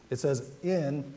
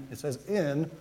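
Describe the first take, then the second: No difference in how they are said.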